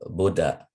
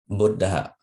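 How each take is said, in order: First: The first syllable is said short. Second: The first syllable is held long. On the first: "some people uh, just pronounce it" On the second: "the Buddha is spoken as a long syllable"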